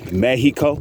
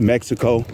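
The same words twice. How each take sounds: First: The x is silent in the word. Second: The x is sounded in the word. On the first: The speaker calls it right. "the true pronunciation is Mexico. the X is silent" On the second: The speaker calls it wrong. "some people say Mexico"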